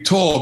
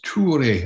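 First: The name is said with anglicized pronunciation. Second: The name is said with Swedish pronunciation. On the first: This is the simplified form for non-Swedish speakers. "you are all going to call me Tor because you cannot pronounce Swedish" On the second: This is how the name's owner says it. "he pronounces Ture, I think is the correct pronunciation"

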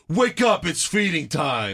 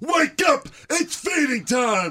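First: It is said in a bored, nonchalant way. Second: It is said in an intense, energetic way.

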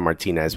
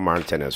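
First: The name is pronounced a non-British way. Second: The name is pronounced the British way. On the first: "which is the way I want to say it" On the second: "I say it the way the Brits say it"

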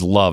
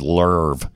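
First: The vowel is a plain short 'uh'. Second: The vowel is a drawn-out 'er' sound. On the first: "She never says love" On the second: "It's always Lerve"

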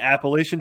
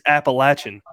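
First: It is said the speaker's usual, non-local way. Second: It is said the local North Carolina way. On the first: The speaker calls it wrong. "that's not how you say it" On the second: The speaker calls it right. "They said it's Appalachian"

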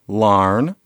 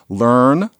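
First: The vowel sounds like 'ar'. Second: The vowel sounds like 'er'. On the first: "an earn becomes an arn" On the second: "an earn becomes an arn"

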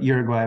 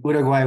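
First: The name is said with English pronunciation. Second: The name is said with Spanish pronunciation. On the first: "would be the English" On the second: "would be like the Spanish way to say it"

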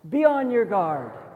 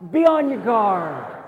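First: It is said flatly, like reading aloud. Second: It is said forcefully, with conviction.

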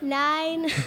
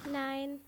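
First: It is said loudly. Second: It is said quietly.

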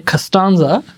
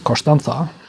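First: It is said with an American accent. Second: It is said with a Spanish accent.

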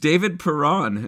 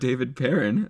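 First: The name is pronounced in a French way. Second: The name is pronounced in an English way. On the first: The speaker calls it right. "It is David Perron" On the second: The speaker calls it wrong. "not David Perrin"

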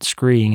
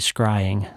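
First: The vowel sounds like 'ee'. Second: The vowel sounds like 'eye'. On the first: The speaker calls it wrong. "I mispronounced screeing. I said it screeing" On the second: The speaker calls it right. "it's actually scrying"

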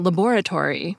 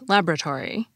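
First: The word is said with every syllable. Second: The word is said with a middle syllable missing. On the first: "and laboratory" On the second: "which is often pronounced laboratory"

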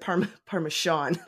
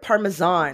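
First: The last syllable sounds like 'shawn'. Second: The last syllable sounds like 'zahn'. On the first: The speaker calls it wrong. "like the person Sean Bean" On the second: The speaker calls it right. "you're saying it right"

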